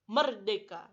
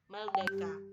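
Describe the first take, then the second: First: The word is articulated clearly and fully. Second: The word is articulated unclearly and slurred. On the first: The speaker calls it right. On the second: The speaker calls it wrong.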